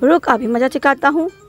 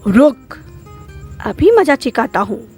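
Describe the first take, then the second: First: It runs on without a pause after रुक. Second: It pauses after a stressed, threatening रुक.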